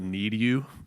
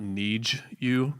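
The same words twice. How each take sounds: First: The D stays a clean D before you. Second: The D and Y blend into a CH sound. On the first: The speaker calls it right. "pronouncing uh, those D's correctly" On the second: The speaker calls it wrong. "Not ... adding a C H to it"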